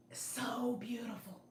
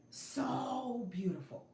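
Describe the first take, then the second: First: "So beautiful" whispered slowly, full of wonder; whispered awe. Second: "So beautiful" voiced slowly, tenderly moved; voiced awe. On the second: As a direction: let "So beautiful" come out slow and tender. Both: Real, not acted.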